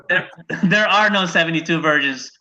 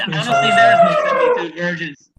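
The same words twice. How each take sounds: First: Said in the usual way. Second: High, loud squeaky falsetto; shrill put-on voice, played for laughs; squeaky mock voice. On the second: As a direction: falsetto blurt before the plain correction. Mock voice before correcting himself.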